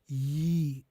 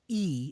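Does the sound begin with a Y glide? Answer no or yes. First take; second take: yes; no. First: The vowel starts with a soft Y glide. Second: The vowel starts plainly, with no Y glide. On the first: The speaker calls it right. "it's like ye. It, like not as hard" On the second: The speaker calls it wrong. "It's not like E"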